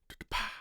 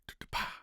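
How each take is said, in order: No difference in how they are said.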